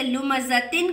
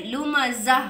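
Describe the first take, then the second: First: लुमज़तिन with तिन at the end; full reading. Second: लुमज़ा ending in a हा sound; pausal form. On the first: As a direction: read लुमज़तिन as written. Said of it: "का हम कैसे पढ़ेंगे". (लुमज़तिन पूरा पढ़ें) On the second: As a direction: stop on लुमज़ा. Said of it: "ये जो हा का साउंड आएगा". (रुककर लुमज़ा, हा की आवाज़) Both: Shown as a demonstration.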